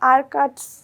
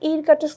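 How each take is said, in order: First: The word begins with an 'ah' vowel. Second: The word begins with an 'ih' vowel. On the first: The speaker calls it right. "আমরা এটাকে কি বলবো আরকাটস্ক" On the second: The speaker calls it wrong. "ইরকাটস্ক বলবো না"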